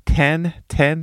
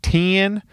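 First: "Ten" said the Mississippi way, like tin. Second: "Ten" with a higher pitch, Mississippi style. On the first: Trying out how people say "Ten" in Mississippi. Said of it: "Did I say it right?". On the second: Repeating the Mississippi "Ten", a bit higher. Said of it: "That's what you say in Mississippi". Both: Shown as a demonstration.

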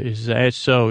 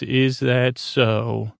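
First: Said in the usual way. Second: IS THAT SO stretched out slowly; imitating a slow, deliberate challenge; slow, drawn-out retort. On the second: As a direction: draw out each word of the question. Quote redone slowly in character.

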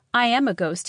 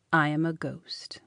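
First: "I am a ghost" higher and louder, insisting; emphatic insistence. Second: Low, whispery confession; hushed revelation. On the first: Young man repeating "I am a ghost" to doubting Celia, emphatic. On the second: Young man revealing himself to Celia, hushed. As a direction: drop to a hush to reveal it. Solemn revelation of being a ghost. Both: A narrator's reading.

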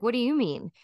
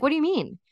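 First: Pointed retort. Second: Higher, puzzled what do you mean; mock baffled what do you mean; confused surprise. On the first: Retold or imitated. Friend answering her baffled question with a pointed retort. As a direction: throw it back as a pointed question. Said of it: "And she's like". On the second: Teen self baffled by friend's dating advice, mock surprised. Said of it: "And I was like".

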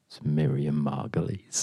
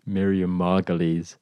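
First: Hushed dramatic whisper. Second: Slow hushed whisper; hushed secret reveal. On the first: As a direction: breathe the name like a secret. Dramatic reveal of duelist. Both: Acted.

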